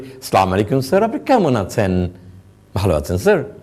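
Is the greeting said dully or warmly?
warmly. The greeting sounds warm and engaging.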